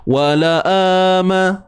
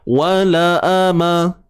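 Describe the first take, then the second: First: The vowel after the hamzah is lengthened. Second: The vowel after the hamzah is short. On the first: The speaker calls it wrong. "kadang-kadang kita terbaca hamzah tu dua" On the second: The speaker calls it right. "Empat-empat huruf ni semuanya satu harakat sahaja"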